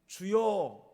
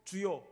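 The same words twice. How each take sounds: First: It is said in a desperate, pleading way. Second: It is said in a drowsy, just-woken way. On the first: The person is praying in urgent need. "너무 절박할 때 주여 하는 것" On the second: The person has dozed off during prayer and just woken up. "깜빡 졸다가 깨서 주여 하는"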